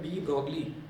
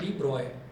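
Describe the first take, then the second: First: The name ends with a 'glee' sound. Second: The name ends with an 'oy' sound. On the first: This reading follows the written spelling. "ये लिखा हुआ है डी ब्रॉगली" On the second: This is how the name is actually said. "लेकिन इसको बोला जाता है डी ब्रॉय"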